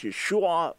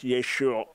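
First: "Yeshua" ending in a separate "ah"; final ah clearly pronounced. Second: "Yeshua" with the final ah swallowed; simply pronounced. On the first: Teacher posing the debate, "Yeshua" with clear final ah. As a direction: sound the last "ah" of "Yeshua" distinctly, shoo-AH. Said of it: "was it clearly pronounced Yeshua". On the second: Teacher posing the alternative, "Yeshua" without clear final ah. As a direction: let the ending of "Yeshua" fade into the shoo. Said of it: "or was it simply pronounced". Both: Shown as a demonstration.

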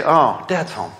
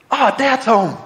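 First: Low-key, sinking disappointment; deflated dread. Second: Higher, glad cry of greeting; light up at the arrival; happy welcome. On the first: Family seeing dad come home, deflated. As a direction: let the heart drop on the greeting. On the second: Family greeting dad as he comes home, pleased and higher. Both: Acted.

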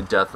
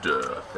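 First: Said in the usual way. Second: Extremely deep bass voice. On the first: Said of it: "in the lowest voice you can say". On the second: Shown as a demonstration. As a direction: drop to the lowest bass you have. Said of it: "Everyone say "death" in the lowest voice you can say".

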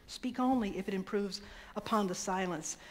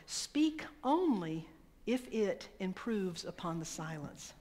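First: Said in the usual way. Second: Slow solemn quote. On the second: Acted. Quoting Gandhi slowly.

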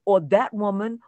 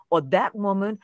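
Both takes have the same delivery.

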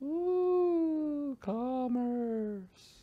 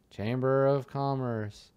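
First: High, soft, eerie drawn-out ooh; spooky voice. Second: Said in the usual way. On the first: Acted. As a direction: say it like a mocking ghost. Spooky take on word.

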